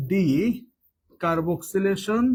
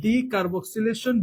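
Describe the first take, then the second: First: decarboxylation stretched very slowly, syllable by syllable; drawn-out term. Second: Said in the usual way. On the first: Shown as a demonstration. Teacher repeating a new term for students, very slow and deliberate.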